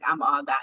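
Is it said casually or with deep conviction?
casually. It is said casually, without real conviction.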